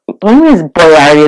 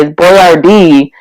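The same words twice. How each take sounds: First: Put-on Boyardee queried with the stress on AR; quick protest, leaning on the middle of Boyardee. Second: Put-on Boyardee drawn out, stress on DEE; slow, insistent correction landing on the last syllable of Boyardee; stress on end of Boyardee. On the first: Speaker retelling disbelief at the commercial, stress on AR in Boyardee. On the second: Speaker insisting on the familiar name, stress on DEE in Boyardee. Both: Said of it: "difference between Boyardee and Boyardee".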